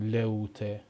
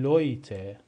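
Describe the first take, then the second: First: The first vowel is a plain o sound. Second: The first vowel is an oy sound. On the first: The speaker calls it wrong. "نمیخونیم لوته" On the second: The speaker calls it right. "میخونیم لویته، صدای اوی میده"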